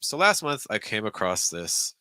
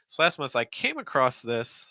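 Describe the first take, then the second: First: The pitch drops lower on the second phrase. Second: The pitch goes higher on the second phrase. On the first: "maybe we could go down on the second thought group" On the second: "Or you go higher"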